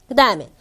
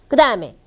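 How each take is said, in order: The two takes are said the same way.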